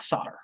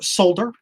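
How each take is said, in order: First: The word is said without an L sound. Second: The word is said with a clear L sound. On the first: This is how Americans say it. The speaker calls it wrong. "us Americans mispronounce things" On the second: This is how the British say it. The speaker calls it right. "as the friends across the pond like to say, because it does have an L in it"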